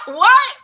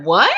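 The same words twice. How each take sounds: First: High, loud laugh breaking into a stunned what; laughing in disbelief. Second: Said in the usual way. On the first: Real, not acted. Telling the host about being fired, laughing in disbelief. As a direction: laugh it out, can't believe it.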